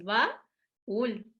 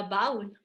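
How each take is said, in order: First: "baúl" broken into ba... ÚL; hiato silabeado. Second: "baúl" as one syllable, BAUL, stress on the a; sin acento. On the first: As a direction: say "baúl" slowly as two separate syllables, ú stressed. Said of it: "Como nosotros lo pronunciamos así". ("baúl" silabeado, ba - ÚL, con hiato) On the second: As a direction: glide from a into a weak u in "baúl". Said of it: "Si no tuviera acento esa U". ("baúl" sin acento, BAUL, con diptongo) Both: Shown as a demonstration.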